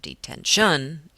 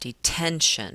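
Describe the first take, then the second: First: The stress is not on the middle syllable. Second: The stress is on the middle syllable. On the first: The speaker calls it wrong. "or detention" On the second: The speaker calls it right. "I put that stress on that middle syllable, that ten"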